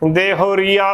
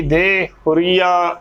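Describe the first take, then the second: First: ਦੇ ਹੋਰੀਆ joined without a break, "dehoreeaa"; said as one word. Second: ਦੇ ਹੋਰੀਆ broken as "de... hureeaa"; wrongly split word. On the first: Teacher showing the word unsplit, joined pronunciation. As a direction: run ਦੇ ਹੋਰੀਆ together. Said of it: "ਇਕੱਠਾ ਹੀ ਉਚਾਰਨ ਕਰਨਾ". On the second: Teacher showing what not to do, split pronunciation. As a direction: pause after de in ਦੇ ਹੋਰੀਆ. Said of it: "ਉਚਾਰਨ ਨਹੀਂ ਕਰਨਾ". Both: Shown as a demonstration.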